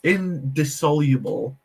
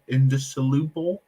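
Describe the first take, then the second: First: "indissoluble" as in-dis-SOL-yuh-bul; corrected pronunciation. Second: "indissoluble" with an oo in "lu"; careful pronunciation. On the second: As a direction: sound out "indissoluble" as in-dis-uh-LOO-bul. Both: Real, not acted. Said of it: "that's better".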